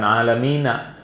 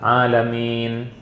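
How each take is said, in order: First: The word ends with an added final vowel. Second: The word ends on a consonant, without a vowel. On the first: The speaker calls it wrong. "bukan alamina" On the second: The speaker calls it right. "Alamin kalau di terakhir disukun"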